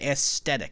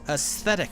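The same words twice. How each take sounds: First: The middle consonant is a hard t sound. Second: The middle consonant is a soft th sound. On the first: The speaker calls it wrong. "I hear so many motherfuckers say aesthetic, and it, it kills me" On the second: The speaker calls it right. "H T H the sound, not t"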